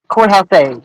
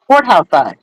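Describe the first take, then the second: First: The name ends with an 'ay' sound. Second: The name ends with an 'eye' sound. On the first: "Or an A at the end" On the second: "It sounds like courthouse with an I at the end"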